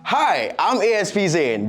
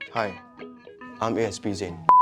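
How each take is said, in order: First: It is said in an overly hyped way. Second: It is said in a more serious way.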